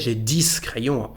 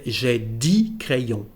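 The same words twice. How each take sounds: First: Dix ends with an audible final S sound. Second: Dix ends without any final consonant sound. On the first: The speaker calls it wrong. "of course we are going to understand you" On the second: The speaker calls it right. "is pronounced D here"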